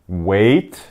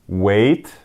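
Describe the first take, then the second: The two takes are said the same way.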